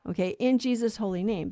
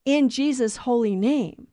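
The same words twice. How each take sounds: First: Said in the usual way. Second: Slow, solemn prayer close; prayer ending. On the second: Shown as a demonstration. Preacher closing a prayer for listeners, slow and solemn. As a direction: intone it like the end of a prayer. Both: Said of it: "that's why the church asks".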